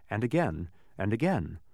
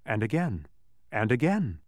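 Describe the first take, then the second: No difference in how they are said.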